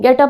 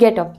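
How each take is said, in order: First: It is said sharply, like an order. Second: It is said softly, in a friendly way.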